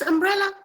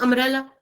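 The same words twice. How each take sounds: First: The b sound is clearly pronounced. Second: The b sound is left silent. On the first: The speaker calls it right. "the B is not silent" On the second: The speaker calls it wrong. "It is not umbrella"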